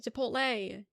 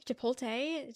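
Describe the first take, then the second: First: "Chipotle" as chi-POHT-lay; LAY ending. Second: "Chipotle" as chi-POL-tay, questioning; TAY ending. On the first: Streamer showing there's no tay, LAY ending. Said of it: "they're saying Lee". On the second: Streamer testing the disputed word, TAY ending. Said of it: "Not a tay in sight". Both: Shown as a demonstration.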